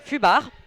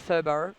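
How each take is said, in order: First: The name is said with a French pronunciation. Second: The name is said with an English pronunciation. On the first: "I can say it in French" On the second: "I'm gonna go for Fubar right now"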